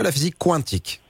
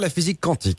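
First: The word 'quantique' starts with a 'kw' sound. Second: The word 'quantique' starts with a plain 'k'. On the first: The speaker calls it right. "je dirai la prochaine fois" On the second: The speaker calls it wrong. "moi je suis le premier à dire"

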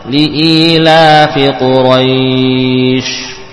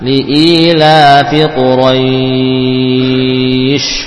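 First: The long vowel is held for four counts. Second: The long vowel is held for six counts. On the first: "4 harokat"

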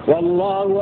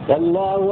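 Both takes have the same delivery.

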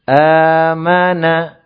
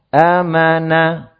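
No difference in how they are said.

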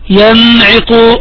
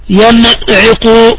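No difference in how they are said.

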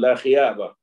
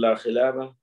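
First: The second word has a Y sound. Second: The second word has an L sound. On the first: The speaker calls it wrong. "لام ما كان يقدر أن ينطق بها" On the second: The speaker calls it right. "إذا بايعت فقل لا خلابة"

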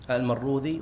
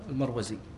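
First: The consonant before the ending is 'dh'. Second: The consonant before the ending is 'z'. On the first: "أحيانا يكتبونها المروذي" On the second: "وأحيانا المروزي"

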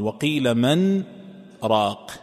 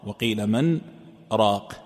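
The two takes are said the same way.

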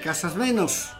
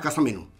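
First: The S at the word's end is strongly sounded. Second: The S at the word's end is barely sounded. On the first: This is how people from Santiago speak. "Los santiagueños acentúan mucho la S" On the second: This is how people from Tucumán speak. "Tucumán diríamos ... No pronunciamos la S"

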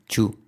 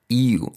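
First: The word starts with a 'ch' sound. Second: The word starts with a 'y' sound. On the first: The speaker calls it wrong. "no decir chu" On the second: The speaker calls it right.

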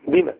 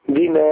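First: The final vowel is short. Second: The final vowel is long. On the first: It asks a question. "إذا كانت سؤالا تكتب وتنطق بدون الألف" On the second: It is not a question. "أما إذا كانت غير سؤال تكتب وتنطق بالألف"

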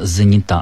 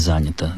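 First: The stress is on the last syllable. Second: The stress is on the first syllable. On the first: The speaker calls it right. "в женском роде ударение падает на окончание" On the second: The speaker calls it wrong. "а не занята"

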